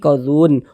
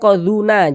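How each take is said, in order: First: The word ends on a closed n sound. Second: The final n is followed by a short vowel. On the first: The speaker calls it right. "tapi qadzun. Huruf nunnya kita sukunkan, kita matikan" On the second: The speaker calls it wrong. "Jangan qadzuna"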